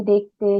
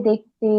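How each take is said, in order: Both takes have the same delivery.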